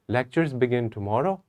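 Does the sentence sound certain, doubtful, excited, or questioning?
doubtful. It is said hesitantly, with doubt and confusion. The speaker is unsure whether it is true. "I'm not sure about it. I'm not, I'm having doubt and I'm having confusion"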